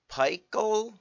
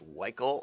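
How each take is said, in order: First: The word starts with a P sound. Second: The word starts without a P or S sound.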